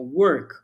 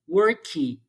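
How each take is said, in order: First: The word ends in a muffled consonant. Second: The word ends with an extra 'ee' vowel. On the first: The speaker calls it right. "Eles tiram o som da consoante, eles abafam" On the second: The speaker calls it wrong. "é muito comum o aluno falar worky"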